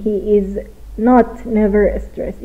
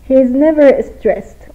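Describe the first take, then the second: First: Slow, with not pushed before never; wrong version shown. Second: Said in the usual way. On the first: Shown as a demonstration. Teacher showing students the wrong form, slow, not stressed. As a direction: set the not apart as the mistake. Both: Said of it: "این غلطه".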